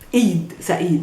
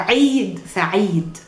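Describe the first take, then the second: First: It begins with a plain vowel, no throat constriction. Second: It begins with a constricted throat sound. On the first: The speaker calls it wrong. "not Eid Sa'id" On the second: The speaker calls it right. "you say Eid Sa'id"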